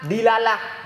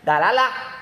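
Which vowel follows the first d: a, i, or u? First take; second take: i; a. First: The first vowel is an i sound. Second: The first vowel is an open a sound. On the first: The speaker calls it wrong. "kasrahnya dal" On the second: The speaker calls it right. "dengan fathah dal, dalalah lebih fasih"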